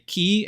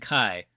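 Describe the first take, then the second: First: The vowel sounds like 'ee' in 'bee'. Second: The vowel sounds like 'i' in 'sky'. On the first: The speaker calls it right. "the correct way to say it is Key" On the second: The speaker calls it wrong. "it's pronounced Key, not Kai"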